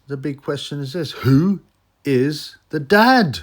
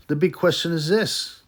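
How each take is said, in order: First: "Who is the dad" slow and loud, pitched up; dramatic build-up. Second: Said in the usual way. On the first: Shown as a demonstration. Vlogger teasing the big question, slow and loud.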